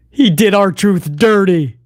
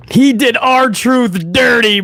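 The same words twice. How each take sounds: First: Slow, stress on "He" in "He did R-Truth dirty"; emphatic. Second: Higher, slower, "He" punched in "He did R-Truth dirty"; stronger emphasis. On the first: Streamer blaming Levesque, slow with "He" stressed. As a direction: lean hard on "He", drawn out. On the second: Streamer doubling down on Levesque, higher and slow. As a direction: repeat it higher, stretching "He". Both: Real, not acted. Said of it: "repeated for emphasis".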